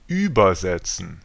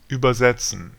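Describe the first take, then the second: First: The stress is on the first syllable. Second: The stress is on the third syllable. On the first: It means to pass over. "separable prefixes are always stressed" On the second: It means to translate. "Inseparable prefixes are not"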